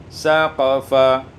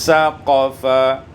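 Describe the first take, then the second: The two takes are said the same way.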